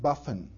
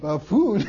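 First: The second syllable has a short, reduced vowel. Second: The second syllable has a long 'oo' vowel. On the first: The speaker calls it wrong. "I'm sure I mispronounced some words" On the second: The speaker calls it right. "Oh, you mean buffoon? Correct?"

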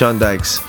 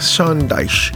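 First: The surname ends with a ks sound. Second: The surname ends with a ch sound. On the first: The speaker calls it wrong. "Did I say that right? Not quite" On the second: The speaker calls it right. "Dyche? Yeah"

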